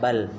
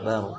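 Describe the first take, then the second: First: The L sound is clearly pronounced. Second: The L merges into a doubled R. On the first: The speaker calls it wrong. "lamnya enggak lagi kita baca ya, bukan bal" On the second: The speaker calls it right. "Tapi baru masuk di ra"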